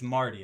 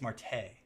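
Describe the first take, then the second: First: The name ends with an 'ee' vowel. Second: The name ends with an 'ay' vowel. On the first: The speaker calls it wrong. "I don't think it's Marty" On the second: The speaker calls it right. "I think it's Marte"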